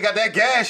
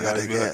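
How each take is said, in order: First: The phrase is said loudly, almost shouted. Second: The phrase is said quietly, in a low voice. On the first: The seller has become bold and insistent. "they get bold. Y'all shout" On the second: The seller is cautiously testing for interest. "They say it low the first time"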